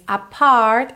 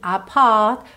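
First: The R in 'apart' is clearly pronounced. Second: The R in 'apart' is dropped, British style.

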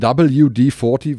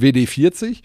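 First: The letters and number are pronounced in English. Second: The letters and number are pronounced in German. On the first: The speaker calls it right. "richtig ausgesprochen, sondern WD40, weil das Unternehmen eben aus den USA kommt" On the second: The speaker calls it wrong. "gar nicht WD40"

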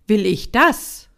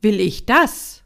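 First: The stress is on the word "das". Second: The same.

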